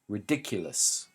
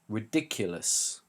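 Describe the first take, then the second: First: The stress is on the second syllable. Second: The same.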